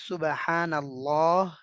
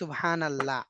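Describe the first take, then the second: First: The vowels are long, in Arabic style. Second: The vowels are short, in Bengali style. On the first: "আরবিতে হচ্ছে ... এগুলো হচ্ছে লম্বা টান" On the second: "বাংলায় হচ্ছে"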